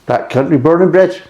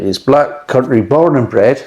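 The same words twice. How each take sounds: First: Broad Black Country accent, pitched higher. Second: Light Black Country accent on born and bred; a hint of Black Country, slipped into unawares. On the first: Beer reviewer hamming up a Black Country accent. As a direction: lay the Black Country accent on thick, proudly. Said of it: "It should be Orchid Descent". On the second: Beer reviewer slipping into a Black Country accent. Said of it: "why I'm saying in that accent". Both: Shown as a demonstration.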